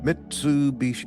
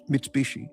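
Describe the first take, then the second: First: It is said with an American English pronunciation. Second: It is said with a Japanese pronunciation. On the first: "Americans say Mitsubishi" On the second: "In Japan, the U is kind of like a little different"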